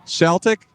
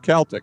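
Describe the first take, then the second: First: The word begins with a soft S sound. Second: The word begins with a hard K sound. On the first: The speaker calls it wrong. "by some good Irishman who I won't name" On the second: The speaker calls it right. "the correct pronunciation is with the hard C"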